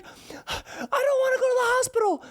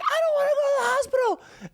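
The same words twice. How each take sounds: First: Put-on high, tearful child voice; crying child voice. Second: Put-on high, whiny tearful kid voice; crying child voice. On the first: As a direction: plead through tears like a hurt little kid. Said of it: "And he's like". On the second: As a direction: beg not to go, like a sobbing child. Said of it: "He's like".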